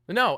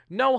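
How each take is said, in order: First: It is said in the speaker's normal voice. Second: It is said in a put-on grandmotherly voice.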